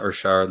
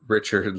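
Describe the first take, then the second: First: The name is said with a French-Canadian accent. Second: The name is said with an American accent.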